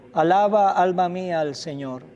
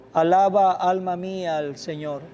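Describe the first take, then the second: The two takes are said the same way.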